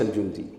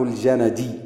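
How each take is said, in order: First: It is said al-Jundi, with no vowel after n. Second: It is said al-Janadi, with vowels after j and n. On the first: It would refer to soldiers. The speaker calls it wrong. "وليس الجندي" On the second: It refers to the place al-Janad. The speaker calls it right. "الجندي نسبة إلى الجند"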